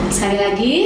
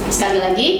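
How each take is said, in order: Both takes have the same delivery.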